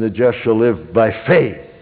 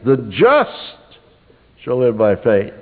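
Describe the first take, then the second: First: The word "faith" carries the stress. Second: The word "just" carries the stress. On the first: "the third time you'd underline "faith."" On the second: "Once you would underline "just,""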